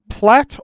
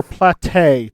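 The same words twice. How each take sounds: First: Platte as one short syllable, "plat". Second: Platte in two syllables, "plat-TAY". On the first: Host offering two pronunciations of the river, Platte as "plat". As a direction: say Platte to rhyme with "flat". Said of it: "I believe it's pronounced". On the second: Host offering the alternative river pronunciation, Platte as "plat-TAY". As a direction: add an "ay" ending to Platte. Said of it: "or Platte, depending on who you ask". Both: Shown as a demonstration.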